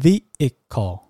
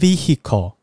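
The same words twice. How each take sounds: First: The h sound is silent in the middle. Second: The h sound is pronounced in the middle. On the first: The speaker calls it right. "这个h 其实是不发音的哦，那它是要念vehicle" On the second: The speaker calls it wrong. "它不是念vehicle"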